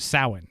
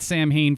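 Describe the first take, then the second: First: The name is not said as it is spelled. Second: The name is said as it is spelled. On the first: The speaker calls it right. "It's actually Samhain" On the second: The speaker calls it wrong. "I had pronounced that Sam Hain for years"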